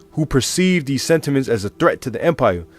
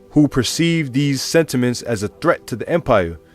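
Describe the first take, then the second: The two takes are said the same way.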